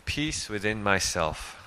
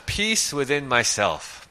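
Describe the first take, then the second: First: Quietly repeated, lower and softer; gentle echo, much softer. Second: Said in the usual way. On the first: Shown as a demonstration. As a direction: let the phrase settle, softer.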